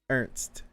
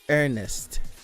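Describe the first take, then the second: First: The name has no extra vowel, one syllable. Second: The name has an extra vowel, two syllables.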